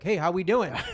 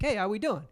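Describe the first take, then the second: First: The greeting is said in a strained, overeager tone. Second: The greeting is said in a relaxed, casual tone. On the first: The person is overcompensating for hidden bias. "If you're racist, you're like" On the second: The person has nothing to hide. "if you're not racist, you'd be like"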